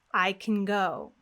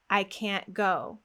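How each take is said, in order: First: Slow model, CAN as k'n, stressed GO; reduced can. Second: Slow, stressed CAN'T with cat's vowel; full-vowel can't. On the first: Teacher contrasting positive with negative, vowelless CAN. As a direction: drop the vowel in CAN, lengthen GO. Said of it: "We get rid of the vowel". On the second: Teacher contrasting negative with positive, full-vowel CAN'T. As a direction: hold the A in CAN'T, then GO. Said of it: "we have the a sound". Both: Shown as a demonstration.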